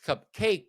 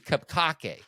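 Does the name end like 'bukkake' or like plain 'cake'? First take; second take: cake; bukkake. First: The name ends like the ordinary word cake. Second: The name ends like the end of bukkake. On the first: "I've always said it's Cupcake" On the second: "it could be Cupcake because I think Bukake has two K's"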